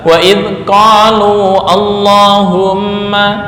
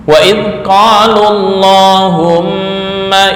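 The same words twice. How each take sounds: First: The final vowel of qalu is long. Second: The final vowel of qalu is short. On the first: The speaker calls it wrong. "Nggak boleh dibaca" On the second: The speaker calls it right. "wawunya dibuang"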